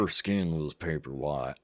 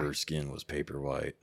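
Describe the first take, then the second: First: It is said in a put-on Southern accent. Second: It is said in a plain, unaccented voice.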